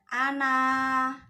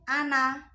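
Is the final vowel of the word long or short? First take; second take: long; short. First: The final vowel is held long. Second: The final vowel is cut short. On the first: The reciter stops on this word. "ketika diwaqafkan itu dibacanya panjang. Ana, dua harokat" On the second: The recitation continues without stopping. "kalau diwasolkan itu pendek. Ana, pendek ya"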